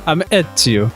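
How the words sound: It is said in a Mario-like Italian voice.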